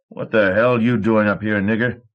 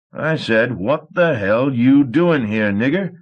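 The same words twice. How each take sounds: First: Snapped. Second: Higher, louder and slow, with menace; a thug warning a slave he won't ask twice; dangerous threat. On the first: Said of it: "he snapped". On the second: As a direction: repeat the question as a slow threat. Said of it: "Sour Billy said dangerously". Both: A narrator's reading.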